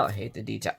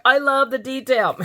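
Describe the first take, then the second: First: Low, soft mock grumble; mock hate. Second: High, emphatic burst of adoration; playful gushing. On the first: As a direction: drop it low as a playful aside. Mock opposite between two gushing takes. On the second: Pretend. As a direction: swing up high and gush it playfully. Gushing reversal of mock hate.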